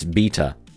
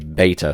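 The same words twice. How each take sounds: First: The first syllable sounds like 'bee'. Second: The first syllable sounds like 'bay'. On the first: The speaker calls it right. "in British English it's beta" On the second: The speaker calls it wrong. "You Americans who just destroy our language say beta"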